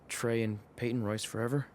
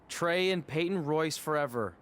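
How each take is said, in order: First: It is said quietly. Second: It is said loudly.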